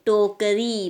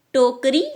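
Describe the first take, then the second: First: "टोकरी" as to-ka-ree, last vowel held; long final ee. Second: "टोकरी" quick, as tokri with short i; wrong short ending. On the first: Teacher correcting pupils, "टोकरी" with long ee. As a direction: separate the syllables of "टोकरी", lengthen ई. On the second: Teacher showing the mistake, "टोकरी" with short i. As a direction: run "टोकरी" together, final vowel short. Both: Shown as a demonstration. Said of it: "बड़ी की मात्रा लगती है".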